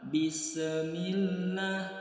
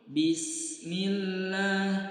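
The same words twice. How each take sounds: First: The s is released with an echoing bounce. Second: The s flows straight into the m, no bounce. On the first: The speaker calls it wrong. "Jika kita lepaskan maka akan terdengar suara pantulan" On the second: The speaker calls it right. "Bismillah itu tidak mantul"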